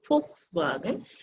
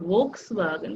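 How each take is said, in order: First: The word begins with an f sound. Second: The word begins with a v sound. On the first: The speaker calls it right. "this is Volkswagen because V has four sounds" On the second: The speaker calls it wrong. "This is not Volkswagen"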